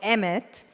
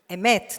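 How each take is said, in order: First: It is said with a non-Israeli, anglicized pronunciation. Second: It is said with an Israeli Hebrew pronunciation. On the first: The speaker calls it wrong. "not Emet" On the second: The speaker calls it right. "as the Israelis will say"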